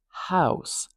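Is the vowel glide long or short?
long. The vowel glides widely from open to rounded. "So instead of house"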